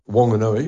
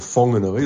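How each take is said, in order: First: The name starts with a plain w sound. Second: The name starts with an h-like sound.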